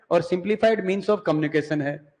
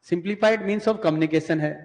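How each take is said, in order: First: Said in the usual way. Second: "simplified means of communication" spelled out slowly, word by word; slow it down so students can write it; slow dictation. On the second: Shown as a demonstration. Teacher dictating notes to students, slow and deliberate.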